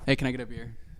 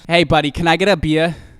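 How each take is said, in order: First: It is said without a Jersey accent. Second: It is said in a strong Jersey accent.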